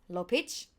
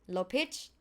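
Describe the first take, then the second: The two takes are said the same way.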